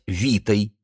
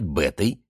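First: The word begins with a v sound. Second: The word begins with a b sound. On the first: This is the reading used by modern speakers of the language. "Рейхлинова система... произносить как современные греки" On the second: This is the traditional letter-by-letter reading of the ancient language. "Эразмову систему... «Бету» называть «бетой» и читать как «б»"

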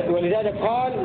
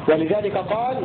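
The two takes are said the same way.

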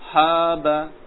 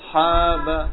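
First: The first consonant is light and thin. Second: The same.

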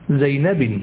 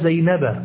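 First: The name ends with nunation, -in. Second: The name ends in a short a vowel. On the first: The speaker calls it wrong. "ولا تقول زينب" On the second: The speaker calls it right. "ذهبت إلى زينب"

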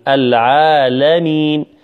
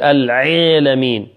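First: The ain sound is soft and unpressed. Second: The ain sound is pressed hard. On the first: The speaker calls it right. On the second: The speaker calls it wrong.

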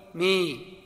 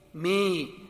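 First: The vowel is between a and i. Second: The same.

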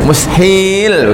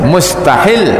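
First: A vowel in the word is drawn out long. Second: The vowels in the word are kept short. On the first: Something that cannot possibly happen. "mustahil begitu panjang" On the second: One who makes lawful what God has forbidden. "kalau dibacanya pendek, mustahil begitu"

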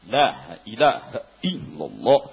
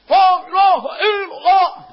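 First: It is said softly, with inward force. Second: It is said loudly, projected outward. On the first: The speaker calls it right. "kuat ke dalam" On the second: The speaker calls it wrong. "contoh zikir keras keluar"

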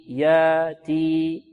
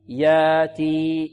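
No difference in how they are said.

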